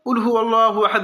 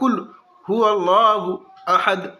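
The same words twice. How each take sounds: First: The words run together without breaks. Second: The words are separated with breaks between them. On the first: It counts as a full recitation of the verse. The speaker calls it wrong. "इस तरह ... ना कहे" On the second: It does not count as a full recitation of the verse. The speaker calls it right. "इस तरह काट काट के अलग अलग करके बोले"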